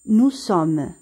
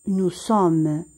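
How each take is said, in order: No difference in how they are said.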